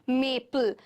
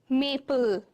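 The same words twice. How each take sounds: No difference in how they are said.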